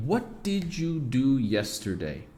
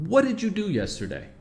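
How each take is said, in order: First: Slow, clear word-by-word English; careful slow version. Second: "what did you do yesterday?" linked as "whadidja do yesterday", pitched higher; natural native pronunciation. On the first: Teacher to students, slow careful English model. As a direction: say "what did you do yesterday?" slowly, each word apart. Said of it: "A segunda pergunta aqui". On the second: Teacher showing students native connected speech, higher. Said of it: "O jeito que a gente fala". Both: Shown as a demonstration.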